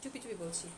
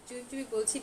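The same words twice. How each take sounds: First: Softer and lower, as if telling a secret; hushed secret. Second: Said in the usual way. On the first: Shown as a demonstration. Seller to live viewers, hushed like sharing a secret. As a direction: lean in and say চুপি চুপি বলছি under your breath.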